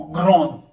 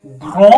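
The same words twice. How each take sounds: First: "ग्रोन" with the d sounded at the end; French grande. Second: "ग्रो" said as gro with no final d; French grand. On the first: Teacher modelling feminine grande with d. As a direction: say "ग्रोन" and finish on a clear d. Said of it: "ग्रोन, डी लेना है". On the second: Teacher modelling the silent d in grand. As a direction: say "ग्रो" as gro, nothing after the o. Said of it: "डी लेना है". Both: Shown as a demonstration.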